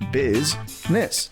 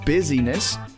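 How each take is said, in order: First: It is said with just two syllables. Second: It is said with three syllables. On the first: The speaker calls it right. "Two syllables" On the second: The speaker calls it wrong. "It's not busyness"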